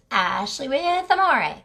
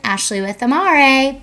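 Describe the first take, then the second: First: Said in the usual way. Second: Louder branded sign-off, stretched slowly. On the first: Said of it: "casual re-intro of name". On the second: Shown as a demonstration. Owner signing off her promo, loud slow brand tag. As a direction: sell the name Amare as a closing tag. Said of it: "sign-off with brand name".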